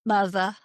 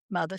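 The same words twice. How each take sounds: First: "Mother," ending in an R-less uh; dropped R. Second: "mother." ending in a strong R; hard R. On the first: Contrasting accents, an R-less "Mother,". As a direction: say "Mother," the Northern way, no R. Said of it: "things that you hear on the North and East Coast". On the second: Contrasting accents, an Ozark hard-R "mother.". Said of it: "we put R's in everything". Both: Shown as a demonstration.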